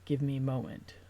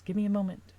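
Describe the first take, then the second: First: Said in the usual way. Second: Raised, strained plea; pleading, higher. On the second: Acted. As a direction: push it up higher and louder, straining. Retake of the quote louder.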